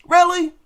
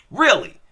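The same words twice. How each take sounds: First: High, disbelieving Really?; incredulous really. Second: Said in the usual way. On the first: Real, not acted. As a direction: throw Really? up in exasperated disbelief. Incredulous rhetorical question.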